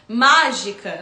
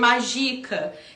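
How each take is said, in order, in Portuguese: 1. A tônica está na primeira sílaba. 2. A tônica está na segunda sílaba. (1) "aquele sinal gráfico significa uma sílaba tônica dentro do má" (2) "e eu tento ler magica"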